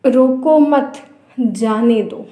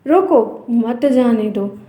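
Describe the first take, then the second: First: "रोको मत" as one unit, then pause before "जाने दो"; pause after मत. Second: "रोको" alone, pause, then "मत जाने दो" together; pause after रोको. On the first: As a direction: run "रोको मत" together, break, then say "जाने दो". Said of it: "लेकिन कॉमा का फ़र्क है". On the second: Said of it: "दूसरे सेंटेंस में कॉमा दूसरे अर्थ को दर्शा रहा है". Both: Shown as a demonstration.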